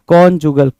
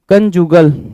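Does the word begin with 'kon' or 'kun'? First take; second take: kon; kun. First: The first syllable is said with an 'o' vowel. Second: The first syllable is said with a short 'uh' vowel. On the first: The speaker calls it right. "कॉन्जुगल बोलते हैं इसको।" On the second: The speaker calls it wrong. "कंजुगल की जगह पे"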